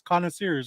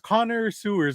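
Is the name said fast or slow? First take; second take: fast; slow. First: It is said fast, blending into one word. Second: It is said slowly, as two separate words. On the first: "if you say it fast enough" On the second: "it's Connor Sewers"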